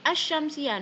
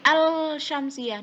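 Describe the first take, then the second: First: The L is silent, merged into the sh. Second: The L is clearly pronounced before the sh. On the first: The speaker calls it right. "Ini alif lamnya enggak ketok lek dibaca" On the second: The speaker calls it wrong. "enggak boleh"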